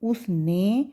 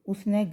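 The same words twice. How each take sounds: First: The final vowel is a plain 'e' sound. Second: The final vowel is a broad 'ai' sound. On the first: The speaker calls it right. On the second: The speaker calls it wrong.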